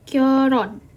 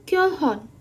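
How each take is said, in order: First: The middle consonant is an r sound. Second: The middle consonant is an h sound. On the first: The speaker calls it right. "tapi kita bacanya adalah Kyoron" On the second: The speaker calls it wrong. "kita bacanya itu bukan Kyohon"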